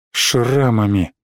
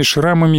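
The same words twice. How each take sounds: First: "шрамами" low, slow and falling; brooding echo. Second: Said in the usual way. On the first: A narrator's reading. Narrator echoing the scars on the board, "шрамами" said broodingly. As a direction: let "шрамами" sink, drawn out and lower. Word echoed alone as a brooding thought.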